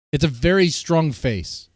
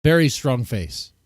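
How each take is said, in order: First: Very drawn out slowly with weight; very stretched and leaned on; stress on very. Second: Very slow and heavy, the words drawn out; Very strong face, slow and weighed; stress on Very. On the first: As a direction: lean hard on very, take it slow. Stressing how strong her face is. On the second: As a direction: drag out Very strong face slowly. Repeats the phrase for emphasis. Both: Real, not acted.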